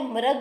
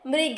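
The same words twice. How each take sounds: First: The first syllable is said with an 'ra' sound. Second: The first syllable is said with an 'ri' sound. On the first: The speaker calls it wrong. "यह मृग नहीं है" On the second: The speaker calls it right. "यह मृग है, क्योंकि यह हमें री की ध्वनि दे रहा है"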